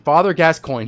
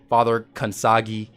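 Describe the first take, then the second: First: The name is said like gas-coin. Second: The name is said like kan-sah-gee. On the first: The speaker calls it right. "But his name is Father Gascoigne" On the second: The speaker calls it wrong. "all kinds of weird pronunciations"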